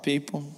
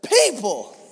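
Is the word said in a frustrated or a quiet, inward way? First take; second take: quiet; frustrated. First: The word is said quietly, as if to oneself. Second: The word is said with strong frustration. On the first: The speaker only thinks it privately. "Or you just think it to yourself" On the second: The speaker is really frustrated with others. "if you're really frustrated"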